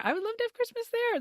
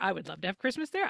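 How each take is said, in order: First: Very high, wistful sing-song; high longing. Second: Said in the usual way. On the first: Shown as a demonstration. Repeated wish, high longing take.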